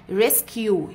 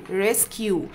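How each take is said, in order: First: ريسكيو ending on a clear yoo. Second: ريسكيو repeated, ending on yoo. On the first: Teacher modelling ريسكيو for the class. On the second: Teacher repeating ريسكيو after the rule. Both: Shown as a demonstration. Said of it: "قلت عليها يو".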